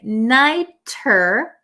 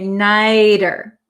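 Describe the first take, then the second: First: The middle consonant is a crisp T sound. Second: The middle consonant is a soft D-like flap. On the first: "instead of saying nighter" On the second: "we tend to say nighter"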